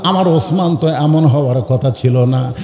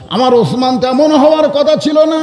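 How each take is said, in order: First: Said in the usual way. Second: High, chanted lament; tearful lament. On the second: Acted. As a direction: plead it high, as if weeping. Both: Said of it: "রাসূল কান্দার বলে".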